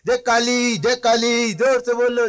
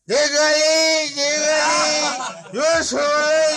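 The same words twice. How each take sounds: First: It is shouted in an ordinary sober voice. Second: It is shouted in a slurred drunk voice.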